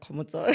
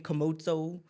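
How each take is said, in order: First: The name is said with a native accent. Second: The name is said with an American accent. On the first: This is how the name is really said. The speaker calls it right. "not Komoto" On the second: This is how others said the name abroad. The speaker calls it wrong. "over there, I mean, they used to call me Komoto"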